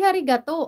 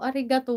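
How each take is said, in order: First: The word begins with an h sound. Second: The word begins with a vowel sound. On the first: The speaker calls it wrong. "Hindi harigato" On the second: The speaker calls it right. "arigato lang"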